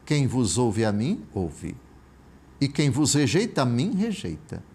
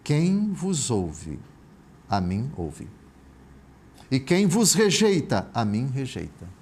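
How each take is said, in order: First: It is read at a normal pace. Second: It is read slowly and deliberately.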